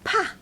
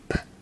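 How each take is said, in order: First: The consonant is followed by a short vowel. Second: The consonant is said alone without a vowel. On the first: The speaker calls it wrong. "It's not pa" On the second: The speaker calls it right. "It's P"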